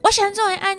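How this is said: The voice is strong and firm.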